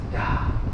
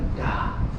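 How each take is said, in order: No difference in how they are said.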